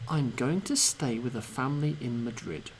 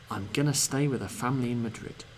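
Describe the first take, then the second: First: Every sound of 'going to' is pronounced clearly. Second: 'Going to' is squeezed together into 'gonna'.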